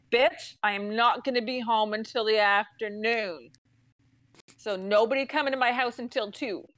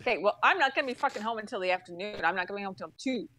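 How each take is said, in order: First: Firm, word-by-word telling off; retold blunt insistence. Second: Fast, irritated comeback; retold firm reply. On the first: Customer to the girl on the phone, firm insistence. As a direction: spell it out firmly, no hurry. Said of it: "this is me to this girl". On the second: Customer to agent about tomorrow's visit, quick irritated reply. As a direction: rattle it off, fed up. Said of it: "this is the conversation I had".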